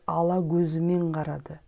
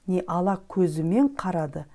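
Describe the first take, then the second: First: The consonants and vowels are assimilated. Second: The consonants and vowels are said as written. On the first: The speaker calls it right. "а произносится как" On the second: The speaker calls it wrong.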